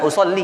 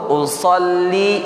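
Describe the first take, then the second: First: The final syllable li is cut short. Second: The final syllable li is held long. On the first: The speaker calls it wrong. "bukan usalli" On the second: The speaker calls it right. "ingat yang li itu panjang"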